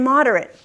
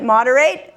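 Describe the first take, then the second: First: "moderate" said MOD-er-it; weak short last vowel in "moderate"; "moderate" as the adjective, ending reduced to "rit". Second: "Moderate" said MOD-er-ate; "Moderate" as the verb, last syllable like "eight"; moderate ending in "rate". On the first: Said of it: "pronounce it differently for average in amount". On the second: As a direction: clear long A at the end of "Moderate". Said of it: "pronounce it differently". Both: Shown as a demonstration.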